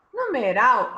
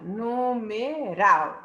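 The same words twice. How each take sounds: First: Said in the usual way. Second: "Numeral" very slowly by syllables, landing on RAL; stress on last syllable. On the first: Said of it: "a última sílaba é tônica". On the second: Shown as a demonstration. Teacher showing the last syllable is tonic, "Numeral" stressed on RAL. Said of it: "a última sílaba é a tônica".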